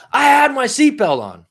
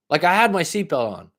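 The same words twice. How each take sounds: First: High, louder outraged protest; retold angry protest. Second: Said in the usual way. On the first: Protesting to police officer about seatbelt, high outraged yell. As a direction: flip out at the cop. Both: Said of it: "I fucking flipped".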